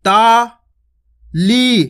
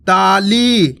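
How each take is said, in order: First: ताली stretched very slowly; drawn out. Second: Said in the usual way. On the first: Shown as a demonstration. Teacher drawing the word out for children. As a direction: hold the vowels of ताली long. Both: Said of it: "खींच खींच के उच्चारण करना है".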